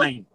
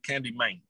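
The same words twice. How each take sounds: First: It is said in a plain, ordinary accent. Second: It is said in a Memphis accent.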